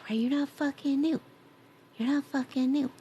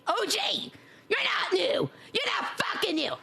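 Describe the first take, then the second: First: Raised pitch without shouting; toned-down mock protest. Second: High-pitched, squawking yell; mock-outraged shout. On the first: Streamer repeats the tease to a viewer, no longer shouting. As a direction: repeat it a little high, at talking volume. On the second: Streamer calls out a regular viewer, shouting high. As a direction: shout it high in playful disbelief. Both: Real, not acted.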